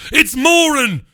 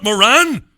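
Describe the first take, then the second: First: "Moran" high, stressed on the first syllable, MORE-un; emphatic pronunciation correction. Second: "Moran" high and loud, stressed on the second syllable, muh-RAN; mock "Moran" as muh-RAN; rejected pronunciation. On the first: Host corrects the English, "Moran" said high as MORE-un. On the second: Host rejects the English way, "Moran" said muh-RAN. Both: Shown as a demonstration. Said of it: "not Moran".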